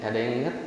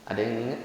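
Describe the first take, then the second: The two takes are said the same way.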